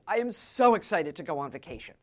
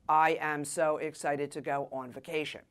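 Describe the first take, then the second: First: It is said with lively inflection. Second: It is said in a flat monotone.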